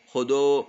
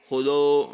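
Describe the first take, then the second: First: The vowels sound open, like o. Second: The vowels sound open, like o.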